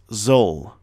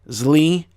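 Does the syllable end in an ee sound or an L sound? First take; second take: L sound; ee sound. First: It has an uh sound and ends on L. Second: It ends with an ee sound after the L. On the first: The speaker calls it right. "It will be pronounced zol" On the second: The speaker calls it wrong. "if you pronounce something like this, zli, you're wrong"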